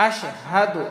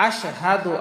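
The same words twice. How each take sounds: The two takes are said the same way.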